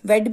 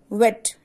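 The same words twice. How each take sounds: First: The word is said with a German accent. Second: The word is said in standard English.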